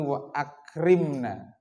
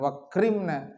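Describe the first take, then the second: First: A glottal catch separates the two words. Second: The words run together with no glottal catch. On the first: The speaker calls it right. "tapi wa akrimna" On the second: The speaker calls it wrong. "Jadi bukan wakrimna"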